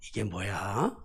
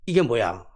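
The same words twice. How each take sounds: First: It sounds curious, with the ending rising slightly. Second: It sounds startled, with a different ending tune. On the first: The speaker wants to know what the thing is. "말거리 꼬리가 약간 높아져요" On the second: The speaker is seeing something new for the first time. "말꼬리가 좀 달라요"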